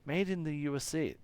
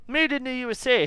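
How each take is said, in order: First: Said in the usual way. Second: Put-on "Made" punched high and loud in a strange made-up accent; odd mystery accent. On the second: Voicing the engineer's discovery, loud odd accent. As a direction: belt out "Made in the U S A" in a vague put-on accent, higher and louder. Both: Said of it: "I don't know what the fuck that accent is".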